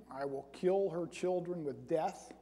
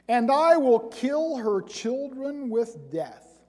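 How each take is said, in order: First: Softer, musing repeat of the verse; quiet requote. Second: Slow and louder, each word weighed; solemn scripture reading. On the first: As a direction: say it again softly, as if puzzling over it. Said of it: "Isn't that kind of redundant?". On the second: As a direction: pronounce the verse like a grave sentence. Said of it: "That's sort of an interesting statement". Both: Shown as a demonstration.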